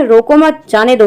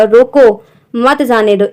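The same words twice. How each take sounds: First: रोको मत as one unit, then जाने दो; pause after मत. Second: रोको said slowly, comma break, then मत जाने दो; pause after रोको. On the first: Someone saying to let the man go, pause after मत. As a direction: break after मत, before जाने दो. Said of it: "दूसरे वाक्य में". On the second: Teacher showing how to read the comma, pause after रोको. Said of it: "विराम चिन्ह का प्रयोग उसके हिसाब से पढ़ना". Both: Shown as a demonstration.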